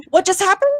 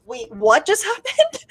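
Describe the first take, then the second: First: Astonished repeat. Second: Slowed, laughing disbelief; a half-laughed, slow "what just happened"; baffled disbelief. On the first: Reliving the ruling with friends, higher astonished repeat. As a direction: push the repeat up high in shock. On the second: Reliving hearing the no extradition news, laughing in disbelief. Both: Retold or imitated. Stunned reaction to ruling news.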